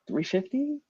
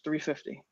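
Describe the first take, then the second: First: It is said unsteadily, with a wavering voice. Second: It is said firmly, with no wavering. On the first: The speaker is unsure whether the price is acceptable. The speaker calls it wrong. "in the beginning it was a little like" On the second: The price is fixed and not up for debate. The speaker calls it right. "there's no hesitation in my voice. There's no like shakiness"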